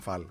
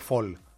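First: The vowel sounds like 'ah'. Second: The vowel sounds like 'aw'. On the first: This is how the name is usually said locally. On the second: This is how the name is said in America.

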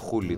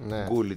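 First: The name begins with a breathy H sound. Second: The name begins with a hard G sound. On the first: The speaker calls it right. "και είναι Hullit" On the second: The speaker calls it wrong. "Εξακολουθούμε να το λέμε Gullit"

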